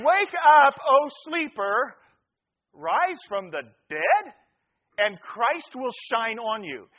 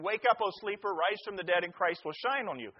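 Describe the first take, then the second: First: Loud opening, slow measured phrases; declaimed scripture. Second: Said in the usual way. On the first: Real, not acted. Preacher reading Ephesians to the congregation, declaiming. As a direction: proclaim the verse phrase by phrase, with pauses. Declaims the verse after joke.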